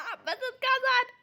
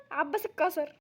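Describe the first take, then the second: First: عباس اتكسر said slowly through laughter; laughing. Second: Said in the usual way. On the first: Real, not acted. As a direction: say عباس اتكسر while cracking up. Repeats it while still laughing.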